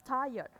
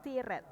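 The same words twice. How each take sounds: First: "tired" as "TAI-uhd" with silent r; louder "tired", gliding vowel and no r; correct "tired". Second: "tired" read as spelt, "tee-ret"; spelling-style "tired", two hard syllables; wrong "tired". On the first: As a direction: say "tired" without sounding the r. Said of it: "Ini bacanya". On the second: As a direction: say "tired" with an ee and sounded r. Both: Shown as a demonstration.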